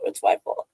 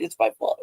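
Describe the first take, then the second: First: Breathy repeat in a whisper; whispered reassurance to little brother. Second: Said in the usual way. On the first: Retold or imitated. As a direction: drop the second one to a hush. Taking the blame, comforting brother.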